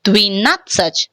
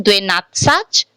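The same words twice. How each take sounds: First: "Dvinatsach" with "dvi" and a short final vowel; reduced YE pronunciation. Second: "Dvenatsach" with full "dve" and full final "a"; unreduced YE pronunciation. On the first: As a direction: stress "nat", reduce the vowels either side in "Dvinatsach". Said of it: "we are pronouncing". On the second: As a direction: keep every vowel unreduced in "Dvenatsach". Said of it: "Instead of pronouncing Dvenatsach". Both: Shown as a demonstration.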